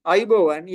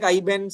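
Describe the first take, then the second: First: "aibowan" said in full, with the middle "bo"; correct Sinhala word. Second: "aiban", shortened without the "bo"; misheard Sinhala word. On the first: Shown as a demonstration. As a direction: say "aibowan" with all its syllables. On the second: Retold or imitated. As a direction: say "aiban" as the machine's garbled version. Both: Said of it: "it take aiban something".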